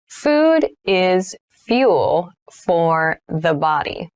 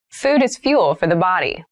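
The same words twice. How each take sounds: First: Slow, word-by-word teacher demo; slow model read. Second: Said in the usual way. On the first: Shown as a demonstration. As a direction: spell it out slowly for learners to repeat. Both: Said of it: "teacher repeats sentence, then slows".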